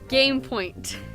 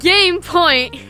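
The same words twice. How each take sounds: First: It is said flatly, without enthusiasm. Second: It is said with lively enthusiasm.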